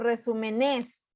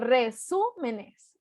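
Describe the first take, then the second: First: The stress falls on a syllable other than su. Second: The stress falls on the third-to-last syllable, su. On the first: The speaker calls it wrong. "ni digo resúmenes" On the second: The speaker calls it right. "digo resúmenes. Entonces es esdrújula"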